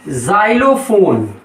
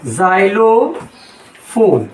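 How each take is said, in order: First: जाइलोफोन as one word, starting with "z"; जाइलोफोन with a buzzed Z onset, unbroken; Z sound. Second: जाइलोफोन very slowly, as "zai-lo... fon"; drawn-out जाइलोफोन starting on a buzzed "z"; slow Z demo. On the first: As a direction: say जाइलोफोन joined up as "zailofon". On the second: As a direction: split जाइलोफोन with a long pause before "fon". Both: Shown as a demonstration. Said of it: "और जैसे जा है".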